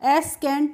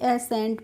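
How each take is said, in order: First: A k sound follows the s. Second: No k sound follows the s. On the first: The speaker calls it wrong. "एसकेंट नहीं पढ़ेंगे" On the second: The speaker calls it right. "एसेंट पढ़ेंगे"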